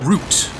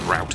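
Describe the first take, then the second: First: The word is said with an English pronunciation. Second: The word is said with an American pronunciation. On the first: The speaker calls it right. "there's an E, um, and a U" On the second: The speaker calls it wrong. "when someone says route"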